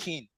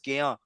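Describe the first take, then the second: First: The name is said with English pronunciation. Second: The name is said with Ivorian pronunciation. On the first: The speaker calls it wrong. "That's how you don't say" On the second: The speaker calls it right. "the way you actually say it in Ivorian"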